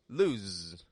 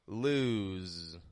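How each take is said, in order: First: The vowel is short and clipped. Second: The vowel is long and stretched out. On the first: The speaker calls it wrong. "It's not quick like lose" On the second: The speaker calls it right. "It stretches out in the vowel sound"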